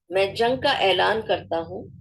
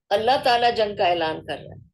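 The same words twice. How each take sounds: First: میں جنگ کا اعلان کرتا ہوں with a rising کا; weighty declaration, rising on کا; solemn declaration. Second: Said in the usual way. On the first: Shown as a demonstration. Teacher quoting the divine declaration, solemn. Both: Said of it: "اب اللہ کہہ رہا ہے".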